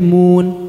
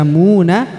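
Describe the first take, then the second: First: The word ends on a silent-vowel n consonant. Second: The word ends with an open a vowel. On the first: The speaker calls it right. "tapi mun, disukunkan" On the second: The speaker calls it wrong. "bukan dibaca muna"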